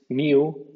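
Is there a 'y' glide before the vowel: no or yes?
yes. The vowel begins with a y glide. This is the British pronunciation. "suenan IU en el Reino Unido"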